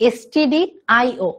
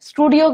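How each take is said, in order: First: It is not pronounced like the word studio. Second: It is pronounced like the word studio. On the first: The speaker calls it right. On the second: The speaker calls it wrong.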